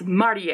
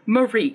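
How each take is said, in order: First: The name is said the Japanese way. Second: The name is said the English way. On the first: The speaker calls it right. "It's Marie. ... She's Japanese" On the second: The speaker calls it wrong. "her name is not Marie. ... That's an English name"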